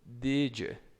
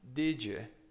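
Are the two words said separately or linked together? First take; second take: linked; linked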